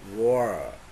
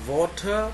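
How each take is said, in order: First: The t is a quick flap like r. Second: The t is a clear t sound.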